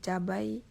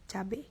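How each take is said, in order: First: Said in the usual way. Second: "cabai" said as "cabe"; "cabai" with -ai reduced to -e; contrasting pronunciation. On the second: Shown as a demonstration. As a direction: end "cabai" on a single E vowel. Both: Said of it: "kata bakunya adalah".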